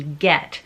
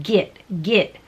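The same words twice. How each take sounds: First: "get" said with a clear open eh vowel, as in bet; correct get vowel. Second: "git" with a short i sound in place of the eh in get; git vowel slip. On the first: Voiceover teacher shows students the proper "get", open eh. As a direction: say "get" rhyming with bet, never git. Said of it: "the word G E T". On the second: Voiceover teacher demos the common slip, "git" with short i. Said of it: "change that vowel sound ... to an I". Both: Shown as a demonstration.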